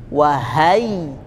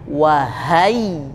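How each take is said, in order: The two takes are said the same way.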